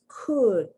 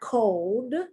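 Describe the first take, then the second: First: The vowel sounds like the one in book. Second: The vowel sounds like the one in go. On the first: The speaker calls it right. "the short U sound" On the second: The speaker calls it wrong. "It's not cold"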